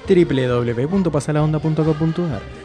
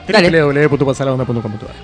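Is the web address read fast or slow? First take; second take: slow; fast. First: The address is read at a slower pace. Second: The address is read at a faster pace.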